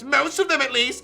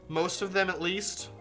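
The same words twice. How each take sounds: First: It is said in a put-on character voice. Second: It is said in the reader's ordinary voice. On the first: The speaker calls it right. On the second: The speaker calls it wrong.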